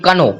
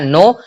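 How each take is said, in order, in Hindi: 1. इस शब्द की शुरुआत k ध्वनि से होती है। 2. इस शब्द की शुरुआत n ध्वनि से होती है। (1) "ना कि कनो। कनो नहीं आया" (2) "तो यहाँ पे आया नो"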